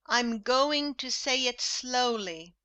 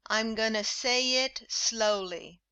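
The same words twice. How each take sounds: First: "going to" fully pronounced; careful formal "going to"; formal full form. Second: "gonna" blurred into "gunna"; informal gonna. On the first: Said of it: "formal English with full forms". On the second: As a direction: loose everyday "gonna". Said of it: "repeat this informal English". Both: Shown as a demonstration.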